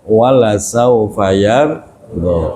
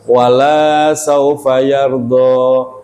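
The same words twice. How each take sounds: First: The vowel in 'la' is kept short. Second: The vowel in 'la' is drawn out long. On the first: The speaker calls it right. "Lanya pendek" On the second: The speaker calls it wrong. "lanya kalau dibaca panjang"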